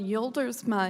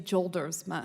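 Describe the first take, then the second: First: The name has its original foreign pronunciation. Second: The name has an Americanized English pronunciation. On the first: This is how it is said in the family's country of origin. "is how they would say it in the homeland" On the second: This is how the family says it in the United States. "we say Joldersma here in the U S"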